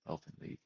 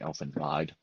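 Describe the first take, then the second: First: The second word has a long 'ee' vowel. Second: The second word has a long 'i' vowel. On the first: The speaker calls it right. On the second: The speaker calls it wrong.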